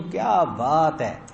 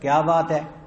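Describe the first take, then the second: First: It is said with wonder and admiration. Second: It is said in an angry tone.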